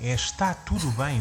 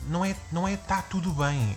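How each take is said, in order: First: The first syllable is fully pronounced, saying está. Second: The first syllable is dropped, saying 'tá. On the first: The speaker calls it right. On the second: The speaker calls it wrong.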